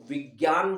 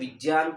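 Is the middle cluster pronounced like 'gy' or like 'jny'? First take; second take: gy; jny. First: The middle cluster sounds like 'gy'. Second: The middle cluster sounds like 'jny'. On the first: This is the changed, everyday pronunciation. "हम लोगों ने इसका उच्चारण में बदला है, इसको हम विज्ञान बोलने लगे हैं" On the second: This is the original pronunciation. "वास्तव में ये जय होता है, जो बाबा रामदेव उच्चारित करते हैं"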